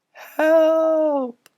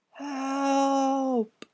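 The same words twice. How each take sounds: First: Very high, thin shout; small voice shouting. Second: High, soft, faint plea; whispered cry. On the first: Ghost boy inside the ringing bell, thin high shout. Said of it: "the small voice shouted". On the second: Trapped ghost boy calling faintly from the bell, soft high plea. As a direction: call out weakly from far away. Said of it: "whispered a voice". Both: Acted.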